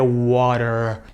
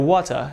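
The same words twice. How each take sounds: First: It is said in an American accent. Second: It is said in a British accent. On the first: "enquanto o inglês americano seria water" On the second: "O inglês britânico seria water"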